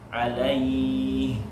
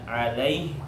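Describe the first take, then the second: First: The 'ai' vowel is drawn out long. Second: The 'ai' vowel is cut short. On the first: The speaker calls it right. "panjangkan, itu namanya matlin" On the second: The speaker calls it wrong. "Jadi tidak alaih"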